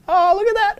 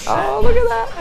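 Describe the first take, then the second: First: It is said in a plain, flat tone. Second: It is said in a teasing, flirty tone. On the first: "I can't even fake it" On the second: "notice the tone of voice"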